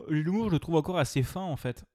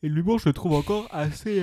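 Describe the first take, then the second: First: Said in the usual way. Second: Yawning. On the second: Real, not acted. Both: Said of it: "pardon, je baille".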